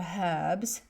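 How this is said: The word is said in a British way.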